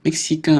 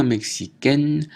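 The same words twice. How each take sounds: First: Mexicain ending in a nasal vowel, no n; masculine pronunciation. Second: Mexicaine ending in èn, n sounded; feminine pronunciation. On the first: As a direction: keep the n of mexicain silent. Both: Shown as a demonstration. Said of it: "prononciation différente".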